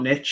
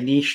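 First: It is said the American way, like 'nitch'. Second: It is said the British way, like 'neesh'.

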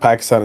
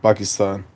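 First: It is said with an anglicized English pronunciation. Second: It is said with a native Urdu-style pronunciation. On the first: The speaker calls it wrong. "it's not Pakistan" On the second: The speaker calls it right. "it's just like Pakistan"

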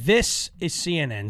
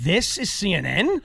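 First: The voice falls at the end like a statement. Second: The voice rises at the end like a question.

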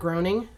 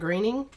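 First: The name is said as it is spelled. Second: The name is not said as it is spelled. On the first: The speaker calls it wrong. "not Groening, which kind of looks like that's how his name should be pronounced" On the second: The speaker calls it right. "created by a person called Matt Groening"

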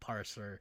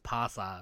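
First: The R sounds are clearly pronounced. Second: The R sounds are dropped, like pasta. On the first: The speaker calls it right. "I have to like enunciate the R's" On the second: The speaker calls it wrong. "because otherwise it's parser"

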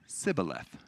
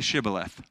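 First: The word begins with an s sound. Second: The word begins with a sh sound. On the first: The speaker is from Ephraim. The speaker calls it wrong. "people from Ephraim cannot pronounce the word correctly" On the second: The speaker is not from Ephraim. The speaker calls it right. "say shibboleth"

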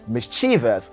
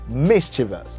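First: The stress falls on a later syllable. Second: The stress falls on the first syllable. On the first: The speaker calls it wrong. "getting the wrong pronunciation" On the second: The speaker calls it right. "The stress falls at the first syllable"

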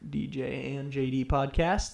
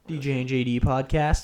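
First: The phrase is said at a normal pace. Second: The phrase is said very fast, run together.

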